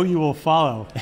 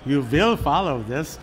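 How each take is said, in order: First: Said in the usual way. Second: Imitated Viennese accent, WILL as "vill"; slow, deliberate mock Viennese accent, "vill" for will; Peter Drucker. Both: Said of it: "hear Peter say this in his accent".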